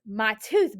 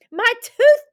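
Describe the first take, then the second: First: Understated surprise on a story quote; Benny, surprised. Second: Loud, high whoop of excitement; Benny whooping. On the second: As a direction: whoop it out, thrilled by the find. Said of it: "Benny whooped". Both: Acted.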